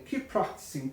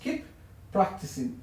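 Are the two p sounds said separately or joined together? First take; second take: joined; separately. First: The two words are joined with one shared p. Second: The two words are said separately, each p sounded. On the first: The speaker calls it right. "Las unimos" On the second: The speaker calls it wrong. "Es separado, diríamos keep practicing"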